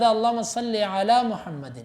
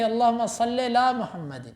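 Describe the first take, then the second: First: Slow, careful "علی محمد" with a clear ع and full "ala"; correct recitation. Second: Slowed imitation with "علی محمد" slurred to "lam uhammad"; mock mispronounced durood; wrong recitation. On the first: Shown as a demonstration. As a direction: recite "اللہم صلی علی محمد" slowly, every letter distinct. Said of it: "لفظ". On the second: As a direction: drop the ع so "علی" vanishes into "lam". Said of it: "وہ پڑھتے تھے".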